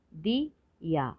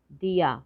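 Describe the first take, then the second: First: दिया slowly split as दि, या; syllable by syllable. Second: Said in the usual way. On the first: Shown as a demonstration. Teacher sounding out दिया for learners, syllable by syllable. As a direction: pause inside दिया. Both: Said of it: "तो शब्द पढ़ते हैं".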